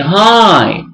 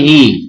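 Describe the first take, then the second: First: The vowel sounds like 'eye'. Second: The vowel sounds like 'ee'. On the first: The speaker calls it right. "We say hi" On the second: The speaker calls it wrong. "We don't say he, no"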